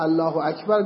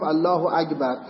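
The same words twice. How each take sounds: First: Said in the usual way. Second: اکبر said as akbar with a g instead of the k. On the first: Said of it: "به جایی که بگه الله اکبر". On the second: Retold or imitated. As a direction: mimic an accent that turns the k of اکبر into g. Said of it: "کاف رو گاف تلفظ کرده". (اکبر را با گاف به جای کاف بگو)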